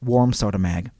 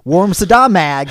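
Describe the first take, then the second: First: The middle part sounds like 'soda'. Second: The middle part sounds like 'Saddam'. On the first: The speaker calls it right. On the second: The speaker calls it wrong.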